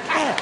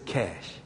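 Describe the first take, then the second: First: Sung up high, triumphant; emphatic. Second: Low, soft, matter-of-fact; deadpan. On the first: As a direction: pop the word way up with glee. Third answer, much higher. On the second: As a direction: drop it flat and unbothered. Preacher's blunt one-word answer. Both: Retold or imitated.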